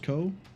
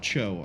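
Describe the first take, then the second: First: The syllable starts with a 'k' sound. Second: The syllable starts with a 'ch' sound. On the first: The speaker calls it right. "I think it's Ko" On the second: The speaker calls it wrong. "I know it's not Cho"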